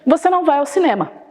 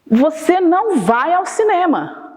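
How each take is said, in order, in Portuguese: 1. É dito como uma afirmação calma e simples. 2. É dito com força forte, em tom exclamativo. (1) "Ponto final. É uma atitude que você vai reconhecer como afirmativa" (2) "com ponto de exclamação"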